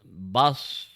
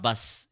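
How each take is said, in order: First: The s is heavy, with rounded lips. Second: The s is light, with flat lips. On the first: The speaker calls it right. "So it is bas" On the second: The speaker calls it wrong. "your lips are uh, remaining flatter throughout"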